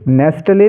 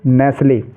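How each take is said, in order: First: The word is said with a clear t sound. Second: The word is said without a t sound. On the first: The speaker calls it wrong. "नेस्टले नहीं" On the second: The speaker calls it right.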